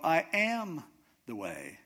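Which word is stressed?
am. The stress falls on the word am. He truly is, as an assertion. "He's saying he is, he really is"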